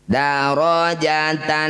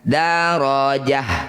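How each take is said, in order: First: The word ends with a t sound and -an. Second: The word ends with a soft h sound. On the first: The reading continues without stopping. "ketika dibaca terus atau dihidupkan dia akan jadi tak" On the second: The reading stops at this word. "ketika dihentikan darajah"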